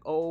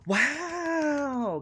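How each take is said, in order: First: It sounds doubtful and unbelieving. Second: It sounds genuinely amazed.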